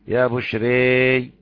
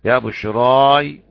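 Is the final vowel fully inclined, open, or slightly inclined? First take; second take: fully inclined; open. First: The final vowel leans fully toward 'e'. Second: The final vowel is an open 'a' sound. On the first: "وإمالة" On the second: "فتح"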